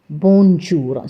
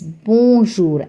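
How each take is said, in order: First: The n is pronounced and stressed clearly. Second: The n is left silent, only nasal. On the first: The speaker calls it wrong. "not bonjour. So don't stress on the N" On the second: The speaker calls it right. "It is bonjour"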